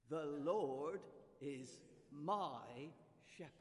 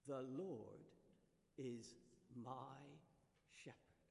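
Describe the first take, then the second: First: Slow, loud "The Lord is my shepherd", "Lord" rising; confident declaration. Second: "The Lord is my shepherd" spaced out word by word; slow counted recital. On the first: Preacher urging the congregation to declare it, slow and loud. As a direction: proclaim it with conviction. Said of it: "So do it with confidence". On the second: Preacher leading the congregation through the finger rhyme, spaced. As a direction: lead the congregation through it slowly. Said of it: "Do it with me". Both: Shown as a demonstration.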